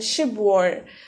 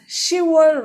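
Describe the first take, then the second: First: It is said with a b sound inside. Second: It is said without a b sound. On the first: The speaker calls it wrong. "rather than Shibwar" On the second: The speaker calls it right. "See how I pronounced October here as Shivor"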